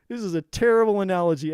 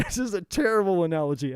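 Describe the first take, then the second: First: Louder and firmer, the laugh gone. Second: Laughing through the words at his own joke; real laugh breaking into the line. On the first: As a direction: say it straight and louder, owning it. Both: Real, not acted.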